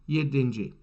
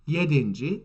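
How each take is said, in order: No difference in how they are said.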